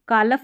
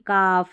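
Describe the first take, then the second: First: An l sound is pronounced before the f. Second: No l sound is pronounced before the f. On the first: The speaker calls it wrong. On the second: The speaker calls it right.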